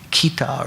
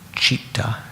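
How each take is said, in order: First: The word begins with a hard k sound. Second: The word begins with a ch sound. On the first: The speaker calls it wrong. "you might say that should be kita or something" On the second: The speaker calls it right. "that C in Sanskrit is, is pronounced like cha"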